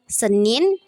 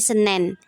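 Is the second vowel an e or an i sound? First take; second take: i; e. First: The second vowel is an i sound. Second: The second vowel is an e sound. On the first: This is the standard pronunciation. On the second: This is a non-standard pronunciation.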